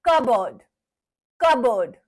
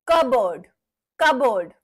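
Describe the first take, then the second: Both takes have the same delivery.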